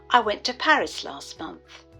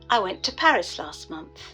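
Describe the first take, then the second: First: The final T sounds in went and last are dropped. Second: The same.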